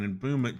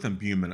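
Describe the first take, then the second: First: The middle sounds like the word boom. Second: The middle has a 'byoo' sound instead. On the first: The speaker calls it wrong. "Emboomment sounds like something you do at a sporting event" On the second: The speaker calls it right. "Go with imbuement, it sounds better"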